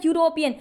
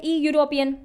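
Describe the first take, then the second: First: यूरोपियन said as it sounds, starting on a plain "you" sound with no E; true sound. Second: ई यूरोपियन read letter by letter with a clear E sound before यूरोपियन; spelling-based misreading. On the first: Teacher showing students the real sound of यूरोपियन, starting on "yoo". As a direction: open यूरोपियन with a clean "yoo", no E before it. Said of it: "sound कैसे दे रहा है?". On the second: Teacher showing students the wrong spelling-based reading ई यूरोपियन, starting on E. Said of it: "इसकी spelling तो आपको यूरोप, ई यूरोपियन लग रही है". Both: Shown as a demonstration.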